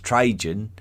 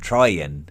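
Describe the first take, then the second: First: The name is pronounced the English way. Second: The name is pronounced the Latin way. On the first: "a very anglicised version" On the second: "what we should probably be calling him"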